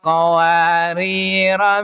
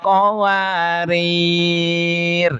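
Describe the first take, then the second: First: The word ends in a short vowel. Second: The word ends on a bare consonant. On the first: The reader continues reciting without stopping. "kedua ro-nya dibaca pendek" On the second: The reader stops on this word. "jika wakaf di qawariro yang kedua, ro-nya dibaca sukun"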